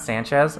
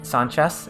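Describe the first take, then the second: First: The name ends with a z sound. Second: The name ends with an s sound. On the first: The speaker calls it wrong. "and not Sanchez" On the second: The speaker calls it right. "maybe it should be San, uh, Sanchez"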